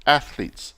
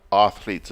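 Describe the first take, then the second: First: "athletes" with a short A as in "cat", no R; athletes without R. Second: "athletes" with an R slipped in, "arthletes"; wrong pronunciation of athletes. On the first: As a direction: say "athletes" cleanly as "ath-leets". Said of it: "No R". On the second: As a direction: make "athletes" start like "art": "arthletes". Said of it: "It's not athletes". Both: Shown as a demonstration.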